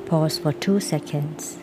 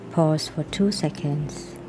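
The two takes are said the same way.

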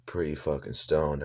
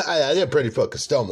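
First: Said in the usual way. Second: Giggling through the confession; laughing. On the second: Real, not acted. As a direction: laughs it out, a bit louder. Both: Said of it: "I forgot".

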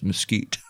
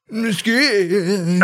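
First: Said in the usual way. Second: MESQUITE with a high, drawn-out second syllable; exaggerated mesquite. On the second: Host joking about an awkward wood name, exaggerated high MESQUITE. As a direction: stretch MESQUITE up high, hammed up.

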